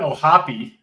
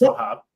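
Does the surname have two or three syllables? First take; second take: three; two. First: The name ends with an extra ee syllable. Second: The name ends abruptly on the p sound. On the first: The speaker calls it right. "You got to add the e on there" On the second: The speaker calls it wrong. "not just O'Hop"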